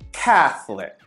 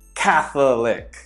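First: A middle syllable of the word is dropped. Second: Every syllable of the word is pronounced in full. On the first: The speaker calls it right. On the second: The speaker calls it wrong.

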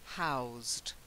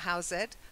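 First: One syllable ending in a z sound. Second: The ending is said as an extra syllable. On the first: The speaker calls it right. "It's more of a z at the end" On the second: The speaker calls it wrong. "It's a silent E, not housed"

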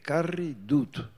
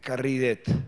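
First: The auxiliary is said with a u vowel. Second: The auxiliary is said with an e vowel. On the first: This is the standard written form. "dijo el profesor" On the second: This is the local dialect form. "yo toda la vida había dicho, por el dialecto, el auxiliar nuestro"

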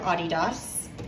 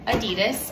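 First: Adidas is said the European way. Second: Adidas is said the American way.

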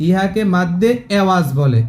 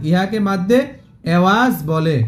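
Both takes have the same delivery.

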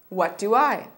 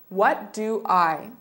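First: The phrase is said at a faster pace. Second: The phrase is said at a slower pace.

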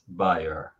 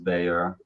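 First: The name is said the European way. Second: The name is said the American way. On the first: "With everyone else, pretty much, it's Bayer" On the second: "So with Americans, it's Bayer"

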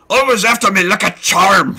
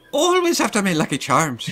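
First: It is spoken in a Scottish accent. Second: It is spoken in an Irish accent. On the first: "Scottish would be"

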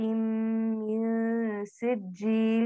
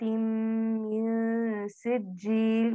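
First: The noon is held with a nasal hum. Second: The same.

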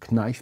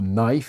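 First: The word starts with a K sound. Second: The word starts without a K sound. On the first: The speaker calls it wrong. "parce qu'évidemment le K, heu, est écrit" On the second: The speaker calls it right. "ne sait pas prononcer le mot knife"

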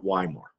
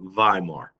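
First: The name begins with a W sound. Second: The name begins with a V sound. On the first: The speaker calls it wrong. "not Weimar" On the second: The speaker calls it right. "that W has a V sound in German"

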